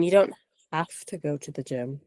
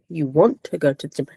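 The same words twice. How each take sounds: First: "have" leaned on against "want"; stress on HAVE. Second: "want" punched as the correction; stress on WANT. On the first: Co-host correcting a tired friend about the gym, stress on "have". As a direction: put the weight on "have", in a lowered voice. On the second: Co-host correcting a tired friend about the gym, stress on "want". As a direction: hit "want" hard, in a lowered voice. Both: Real, not acted. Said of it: "They're two very different things".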